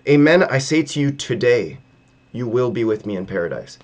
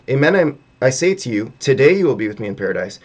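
First: The pause comes after the word today. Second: The pause comes before the word today.

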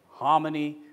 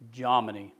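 First: The first letter is not sounded as J. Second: The first letter is sounded as J. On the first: "I always used to say Hominy" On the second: "They pronounce the J"

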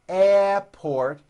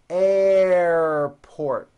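First: The R sound after air is weak. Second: The R sound after air is strong. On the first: The speaker calls it wrong. "It's not airport" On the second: The speaker calls it right. "like that with a strong R sound"

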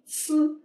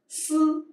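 No difference in how they are said.

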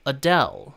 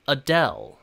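The two takes are said the same way.

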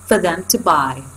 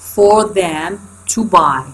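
First: The small words are reduced to weak vowels. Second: Each small word is said fully and clearly. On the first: "فهنا صارت weak form" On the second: "كل واحدة على حدة وبال strong form"

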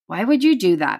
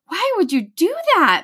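First: It is read flatly, without emotion. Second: It is read with a crying, upset tone.

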